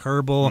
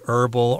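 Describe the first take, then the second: First: The word is pronounced in a British way. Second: The word is pronounced in an American way. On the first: "in the U K they say herbal" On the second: "in the U S we tend to say herbal"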